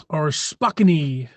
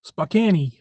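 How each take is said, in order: First: Slow Spokane said as spo-KAN-ee; Spokane with a sounded E. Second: Spokane with the E sounded again; quick Spokane, ending in ee; Spokane as spo-KAN-ee. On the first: Streamer mocking the spelling, slow Spokane as spo-KAN-ee. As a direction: stretch out Spokane, voicing the final E. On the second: Joking about the final E, Spokane said as spo-KAN-ee. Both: Shown as a demonstration. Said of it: "Why would you put an E".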